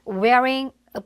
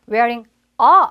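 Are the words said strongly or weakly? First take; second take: weakly; strongly. First: The words are said weakly and lightly. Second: The words are said strongly and loudly. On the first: The speaker calls it right. "굉장히 약하게 발음이 되는" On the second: The speaker calls it wrong. "이렇게 세게 읽는 사람이 아무도 없단 말이에요"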